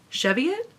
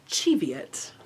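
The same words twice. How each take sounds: First: The word has an American pronunciation. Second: The word has a British pronunciation. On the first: "Is that how we say it in America?" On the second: "that's how the British say it"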